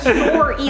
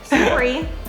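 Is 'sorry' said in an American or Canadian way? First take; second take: Canadian; American. First: The first syllable sounds like the word sore. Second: The first syllable does not sound like sore.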